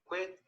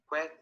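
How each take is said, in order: First: The vowel sounds like a short i. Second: The vowel sounds closer to an e. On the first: This is the present tense form. "al principio se lee como fit, quit" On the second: This is the past tense form. "al pasado simple y al pasado participio cambia por una E"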